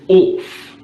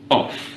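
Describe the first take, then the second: First: The vowel is long, like 'orf', Queen's English. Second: The vowel is a short, plain 'o'.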